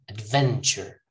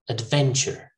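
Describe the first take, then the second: The two takes are said the same way.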